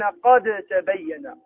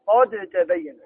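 First: قد تبين with the dal kept clear, qad tabayyan, said very slowly; slow recitation keeping the dal; reading without merging. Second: قد تبين with the dal merged, qattabayyan; assimilated recitation; recited with merging. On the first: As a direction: pronounce the dal in قد distinctly, very slow. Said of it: "يقرؤون". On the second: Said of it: "يقرؤون الدال". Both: Shown as a demonstration.

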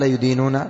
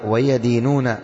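First: يدينون said "yudīnūna", with "yu"; wrong damma reading. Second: ويدينون read "wa-yadīnūna", with "ya"; correct fatha reading. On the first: Teacher showing a meaning-changing error, يدينون as "yudīnūna". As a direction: give يدينون a u-vowel after the y. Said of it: "لكن لو قال". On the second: Teacher reading the text to students, ويدينون as "wa-yadīnūna". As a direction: give ويدينون an a-vowel after the y. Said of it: "انظر ماذا قال هنا". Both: Shown as a demonstration.

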